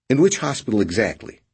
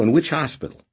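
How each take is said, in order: First: Higher, sharper repeat of the question; irritated. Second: Nervous. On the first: Boney pressing Redrick again, irritated. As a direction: press him with rising irritation. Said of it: "already sounding irritated". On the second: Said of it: "Boney said nervously". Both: A narrator's reading.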